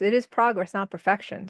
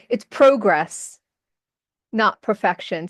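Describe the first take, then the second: First: Progress is said with a non-Canadian accent. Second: Progress is said with a Canadian accent.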